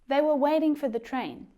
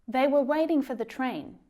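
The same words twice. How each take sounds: The two takes are said the same way.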